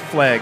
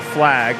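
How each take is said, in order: First: The vowel sounds like a short 'e'. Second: The vowel is a plain short 'a' sound. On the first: "Flag with an E" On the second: "instead of saying flag with an A"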